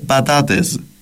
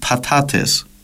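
First: The consonants are voiced b and d sounds. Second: The consonants are voiceless p and t sounds. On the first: This is the Cypriot Turkish form. "στην Κυπριακή Τουρκική" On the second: This is the standard Turkish form. "στην πρότυπη"

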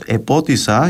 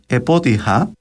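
First: An s sound comes before the final vowel. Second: An h sound comes before the final vowel. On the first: "λέξεις όπως «επότησα»" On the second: "με δασί πνεύμα δηλαδή"

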